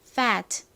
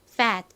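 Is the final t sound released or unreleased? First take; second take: released; unreleased. First: Said carefully, with a clearly released final t. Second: Said fast, with a weak, unreleased final t. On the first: "정확히 발음하면" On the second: "끝에 T가 약하게 발음이 나다 보니 빠르게 하면"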